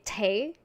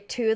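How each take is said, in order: First: The vowel is a Scottish ay sound. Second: The vowel is a plain standard oo sound. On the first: "they say tay" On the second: "they don't say two"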